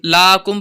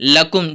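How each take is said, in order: First: The first vowel is drawn out long. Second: The first vowel is said short and quick. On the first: The speaker calls it wrong. "इसमें हम इसको लाकुम लाकुम पढ़ जाते हैं" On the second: The speaker calls it right. "लकुम जल्दी पढ़ेंगे"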